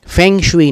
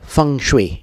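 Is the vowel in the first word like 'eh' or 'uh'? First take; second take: eh; uh. First: The first vowel sounds like 'eh'. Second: The first vowel sounds like 'uh'. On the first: This is the form read from the English spelling. The speaker calls it wrong. "फेंग शुई नहीं बोलते" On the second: This is the form used by Chinese speakers. The speaker calls it right. "वो सब उसको फंग शुई बोलते हैं"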